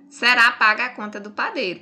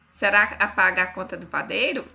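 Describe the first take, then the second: First: It ends with a falling, statement tune. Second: It ends with a rising, question tune.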